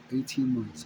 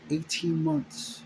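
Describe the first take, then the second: First: Said in the usual way. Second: "Eighteen" lifted high and slow, "months" drawn out; emphatic repeat. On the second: Real, not acted. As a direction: let the number land, slowly and high.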